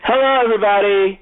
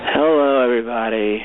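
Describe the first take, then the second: First: The voice sounds lively and energetic. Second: The voice sounds low-energy and tired.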